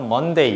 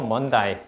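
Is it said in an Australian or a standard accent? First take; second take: standard; Australian. First: It is said in a plain standard accent. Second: It is said in an Australian accent. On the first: "Monday 이렇게 하지 않고" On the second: "Monday 이렇게만 얘기해요"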